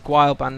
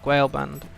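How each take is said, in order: First: The AE vowel is said like 'eye'. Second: The AE vowel is not said like 'eye'. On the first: The speaker calls it right. "A E is supposed to be pronounced I" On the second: The speaker calls it wrong.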